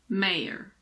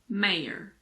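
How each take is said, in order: No difference in how they are said.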